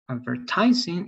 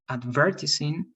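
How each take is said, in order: First: It is said in an American accent. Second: It is said in a British accent. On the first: "it's American" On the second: "it's British"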